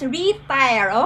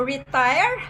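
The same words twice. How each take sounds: First: The stress is on the first syllable. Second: The stress is on the second syllable. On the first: Renewing and recalibrating oneself. "the inflection, okay, or the stress. Okay, on the first syllable" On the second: Becoming inactive and no longer growing. "Inactive, not growing, maybe being dormant"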